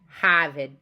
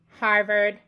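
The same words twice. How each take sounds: First: The R in Harvard is dropped. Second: The R in Harvard is pronounced.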